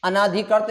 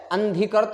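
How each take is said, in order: First: अनाधिकृत with "naa" before dhi; अनाधिकृत with an added long A; wrong long A. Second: अंधीकृत as an-DHI-krit, no long A; अंधीकृत without "naa"; correct form. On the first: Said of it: "अनाधिकृत नहीं होता है". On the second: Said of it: "अंधीकृत होता है". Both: Shown as a demonstration.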